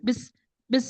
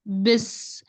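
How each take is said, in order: First: The s sound is rushed and clipped short. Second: The s sound is clear and fully drawn out. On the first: The speaker calls it wrong. "जल्दी से ऐसे नहीं निकलना" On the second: The speaker calls it right. "सीन की आवाज़ अच्छे से वाज़े करके अच्छे से पढ़नी"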